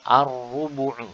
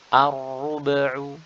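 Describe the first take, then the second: First: The b is followed by a u vowel. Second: The b is cut short with a bounce, no vowel. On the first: The speaker calls it right. "padahal di sini adalah dhammah ya" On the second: The speaker calls it wrong. "ba itu sakinah seperti ini"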